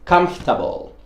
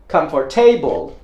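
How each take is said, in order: First: The ending is reduced, not said like 'table'. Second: The ending is said fully, like 'table'. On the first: The speaker calls it right. "The one that I say is comfortable" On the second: The speaker calls it wrong. "that is like a table, so I'm going to say comfortable. Uh, that sounds really wrong"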